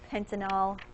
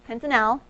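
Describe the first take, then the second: First: The ending is slurred and unclear. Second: The ending is clear and emphasized. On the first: The speaker calls it wrong. "when I get lazy, I just call it pentanal" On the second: The speaker calls it right. "I'm trying to emphasize it"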